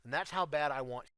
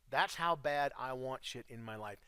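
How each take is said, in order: First: Said in the usual way. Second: "That's how bad I want shit" dragged out slowly, each word weighted; slow down and lean on "how bad"; slow, emphatic. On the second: Real, not acted. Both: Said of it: "repeats the line more slowly".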